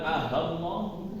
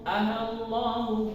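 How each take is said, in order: First: A clear h sound breaks the opening vowels. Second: The opening glottal sound is softened and smooth. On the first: The speaker calls it wrong. "bukan Ahallahu" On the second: The speaker calls it right. "dibaca tashil jadi Allah, Allahu"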